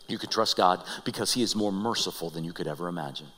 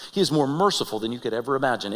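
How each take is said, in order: First: Low, soft, reverent reading; hushed quotation. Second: Said in the usual way. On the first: Real, not acted. Preacher quotes Moses's last reminder, hushed and low. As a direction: lay it down softly and low.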